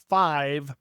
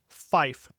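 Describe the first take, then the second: First: It ends with a 'v' sound. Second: It ends with an 'f' sound.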